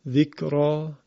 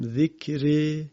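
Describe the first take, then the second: First: The final vowel is an open a sound. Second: The final vowel is fully fronted toward e. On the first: "یکی فتح ذکرا" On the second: "یکی اماله است که اول من در واقع تلفظ کردم ذکره که به این میگن اماله کبرا"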